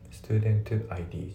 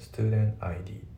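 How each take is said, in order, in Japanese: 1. tの音ははっきり発音されています。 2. tの音はほぼ抜けています。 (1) "じゃなくて" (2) "ですね"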